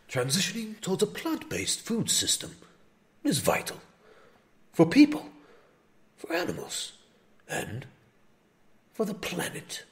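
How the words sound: It is read in a put-on nature-narrator voice.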